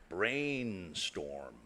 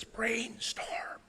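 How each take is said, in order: First: Soft, flat robot voice; robotic voice. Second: Soft, whispery robot voice; whispered robotic voice. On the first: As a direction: say it like a toy robot. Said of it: "you'll hear a robotic voice". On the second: Presenter imitating the toy's recording for the audience, whispered robotic voice. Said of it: "sort of a whispered robotic voice". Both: Retold or imitated.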